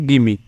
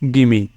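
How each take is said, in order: First: The words run together into one short word. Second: The words run together into one short word.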